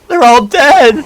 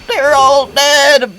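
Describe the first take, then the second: First: The voice sounds natural, with no buzzing. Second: The voice sounds buzzy and robotic. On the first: "hyper advanced A I, where like it don't even sound robotic" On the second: "I added like like like like the the, the buzzing into it"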